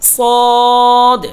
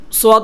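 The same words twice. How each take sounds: First: সদ said as one heavy, full syllable, louder; correct sad. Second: সদ said wrongly as "suad"; wrong sad. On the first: Teacher giving the correct সদ after the wrong one. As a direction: say সদ correctly, no glide. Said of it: "সঠিক উচ্চারণ হলো". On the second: Teacher showing the mistaken "suad" for সদ. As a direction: glide সদ into "su-ad", the mistaken way. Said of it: "সদ বলা যাবে না". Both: Shown as a demonstration.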